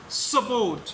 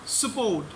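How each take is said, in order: Both takes have the same delivery.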